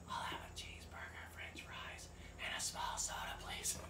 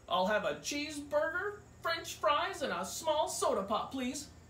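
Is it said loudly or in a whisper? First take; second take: whisper; loudly. First: It is said in a whisper. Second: It is said loudly.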